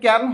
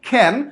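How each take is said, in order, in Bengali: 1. প্রথম k ধ্বনিতে বাতাসের কোনো ফুঁ নেই। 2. প্রথম k ধ্বনিতে বাতাসের একটি জোরালো ফুঁ আছে। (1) "এখানে ক্যান হবে না" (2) "আমি ক কে খ উচ্চারণ করছি, উচ্চারণ হবে খ্যান"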